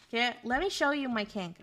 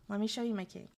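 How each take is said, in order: First: Said in the usual way. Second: Teasing hush. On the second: Shown as a demonstration. Streamer teasing chat about her kink, hushed repeat. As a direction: drop it down as a teasing tease.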